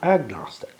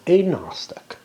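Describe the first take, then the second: First: It is split as 'ag' plus 'nostic'. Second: It is split as 'a' plus 'gnostic'. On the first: The speaker calls it wrong. "not agnostic" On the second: The speaker calls it right. "I think it should be pronounced agnostic"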